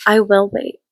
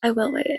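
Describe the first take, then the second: First: Said in the usual way. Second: Soft resigned repeat. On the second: Real, not acted. Repeated, much softer.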